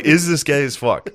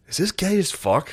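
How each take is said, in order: First: Higher-pitched, amused disbelief; mock incredulous question. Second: High-pitched, puzzled question to yourself; mock dawning doubt. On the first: Retelling own question to the show, amused incredulity. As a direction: ask it outright, pitched up. Repeats the doubt, more firmly. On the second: High viewer questioning the show, high-pitched mock doubt. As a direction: ask it high, as if baffled. Acts out stoned doubt while watching.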